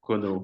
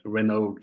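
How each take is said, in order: First: The name is said with its native pronunciation. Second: The name is said with an English pronunciation. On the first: This is how the name is really said. "Renaud is a bit more difficult to pronounce it for you" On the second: This is how English speakers usually say it. "English people pronounce it my name like that"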